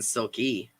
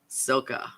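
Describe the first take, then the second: First: The name ends with an "ee" sound. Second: The name ends with an "ah" sound. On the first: The speaker calls it wrong. "I've been saying Silky" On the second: The speaker calls it right. "I want to say your name right"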